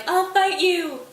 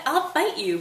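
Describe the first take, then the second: First: "I'll fight you" yelled much higher and louder, slow and drawn out; yelling. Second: Higher and louder challenge; raised challenge. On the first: Hamlet dragged away from the grave, yelling at Laertes. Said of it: "still yelling". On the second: Hamlet challenging Laertes at the grave, raised voice. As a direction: throw down the gauntlet, "I'll fight you" raised but not yet yelling. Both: Retold or imitated.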